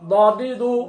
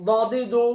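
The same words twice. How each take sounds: The two takes are said the same way.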